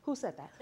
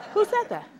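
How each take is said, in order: First: Laughing. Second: High startled cry of "Who said that?"; a sudden high "Who said that?" to an empty room. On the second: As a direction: jump at a voice out of nowhere with "Who said that?". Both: Acted. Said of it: "you say".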